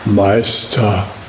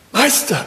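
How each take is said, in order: First: The word is said casually, without clear intent. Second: The word is said clearly, with focused intent. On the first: The call is an empty habit. The speaker calls it wrong. "nicht Meister" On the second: The call aims to be truly present. The speaker calls it right. "da ist irgendwas noch von Klarheit da drin und einer Absicht, wirklich präsent zu sein"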